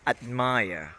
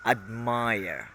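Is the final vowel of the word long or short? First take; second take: long; long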